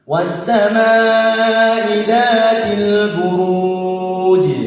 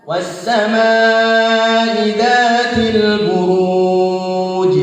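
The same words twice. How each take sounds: No difference in how they are said.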